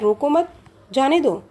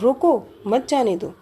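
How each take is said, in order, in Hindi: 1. विराम दूसरे शब्द के बाद आता है। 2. पहले शब्द पर बलाघात है, फिर विराम है।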